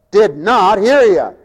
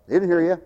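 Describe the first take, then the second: First: Slow, weighty "Did not hear you"; emphatic repeat. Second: Soft, low remark; quiet aside. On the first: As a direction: draw out "not" with full voice. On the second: Aside on unheeding sleepy congregation. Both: Real, not acted.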